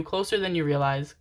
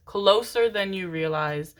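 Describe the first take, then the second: First: Said in the usual way. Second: Slow, drawn-out "Closer"; stress on CLOSER. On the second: Real, not acted. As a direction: stretch out "Closer" for emphasis. Repeats it slower for emphasis.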